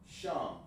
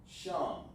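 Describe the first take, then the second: No difference in how they are said.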